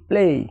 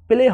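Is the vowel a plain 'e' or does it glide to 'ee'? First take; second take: glide; plain. First: The vowel glides from 'e' up to 'ee'. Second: The vowel is a plain, short 'e' sound. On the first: The speaker calls it right. "এ এর উচ্চারণ এই এর মতো হয়েছে" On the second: The speaker calls it wrong. "প্লে হবে না"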